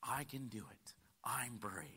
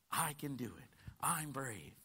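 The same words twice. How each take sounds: First: Soft whispered encouragement. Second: Said in the usual way. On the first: Shown as a demonstration. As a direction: breathe the words like a secret pep talk. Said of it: "Let me tell you what you need to say". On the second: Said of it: "Let's speak this together".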